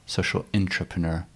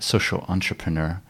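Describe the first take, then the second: First: "intrapreneur" opening with a clear "in", set against entrepreneur; social intrapreneur. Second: "entrepreneur" said as on-tray-pruh-NUR, opening with "on"; social entrepreneur. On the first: Interviewer to guest, contrasting the second term, careful pronunciation. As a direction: lean on the "in" of "intrapreneur" so it stands apart. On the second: Interviewer to guest, spelling out the first term, careful pronunciation. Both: Shown as a demonstration.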